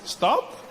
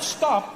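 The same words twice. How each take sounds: First: It sounds like a gentle suggestion. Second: It sounds like a firm command.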